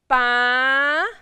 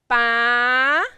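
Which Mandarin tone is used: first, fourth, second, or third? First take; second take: second; second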